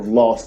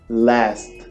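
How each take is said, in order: First: It is said with a British accent. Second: It is said with an American accent.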